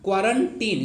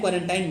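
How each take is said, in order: First: The last syllable sounds like 'teen'. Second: The last syllable sounds like 'tine'. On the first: The speaker calls it right. "Correct pronunciation क्या होगा" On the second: The speaker calls it wrong. "क्वारंटाइन क्वारंटाइन मत बोलिएगा"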